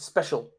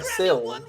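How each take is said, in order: First: The ending sounds like 'shul', as in special. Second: The ending sounds like 'sil', as in pencil. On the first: "the way that you should pronounce that is special, like that" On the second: "like pencil"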